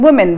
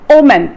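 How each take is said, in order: First: The word starts with a w sound. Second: The word starts without a w sound. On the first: "instead of using women" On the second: "Some people would say omen"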